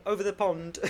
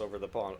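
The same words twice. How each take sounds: First: Quick high British "Over the pond", louder, with a crisp "pond"; jokey British accent, pitched up, on "Over the pond". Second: Said in the usual way. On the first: Shown as a demonstration. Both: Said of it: "Let's hear the James Bond accent".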